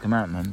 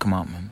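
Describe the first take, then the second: First: It is said with an American pronunciation. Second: It is said with a British pronunciation. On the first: "They don't say commandment" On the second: "but commandment. ... Because they speak British English"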